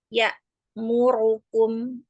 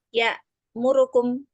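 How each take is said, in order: First: The mim and ro vowels are held full length. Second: The mim and ro vowels are cut short. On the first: The speaker calls it right. "itu memang seharusnya cara membaca yang benar. Jadi mim, ro itu dibacanya satu harokat" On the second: The speaker calls it wrong. "Ikhtilas itu artinya apabila cara membacanya seperti ini"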